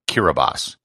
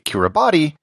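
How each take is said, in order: First: The 'ti' is said with an s sound. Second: The 'ti' is said with a t sound. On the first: The speaker calls it right. "is pronounced Kiribati" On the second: The speaker calls it wrong. "what should be Kiribati"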